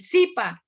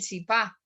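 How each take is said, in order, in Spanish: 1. El acento está en la primera sílaba. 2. El acento está en la segunda sílaba. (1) "Uno, por ejemplo, habla del zipa" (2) "no habla del zipá"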